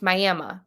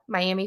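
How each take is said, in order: First: It is pronounced the local Oklahoma way. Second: It is pronounced the usual Florida way. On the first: It names the town in Oklahoma. "here in Oklahoma, it's Miami. That's how you say it" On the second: It names the city in Florida. "Miami, Florida"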